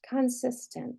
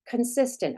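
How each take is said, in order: First: Every vowel is pronounced full and unreduced. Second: The unstressed vowels are reduced to schwa. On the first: The speaker calls it wrong. "that doesn't sound right" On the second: The speaker calls it right. "Let me try flexing"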